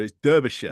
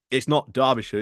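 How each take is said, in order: First: "Derbyshire" said the Yorkshire way; "Derbyshire" in the correct Yorkshire way; Yorkshire pronunciation. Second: "Derbyshire" said the way outsiders say it; wrong pronunciation. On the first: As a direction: give "Derbyshire" as the proper local version. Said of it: "it's said in, in Yorkshire". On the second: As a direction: give "Derbyshire" as the version you correct. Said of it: "when I'm trying to pronounce Derbyshire". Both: Shown as a demonstration.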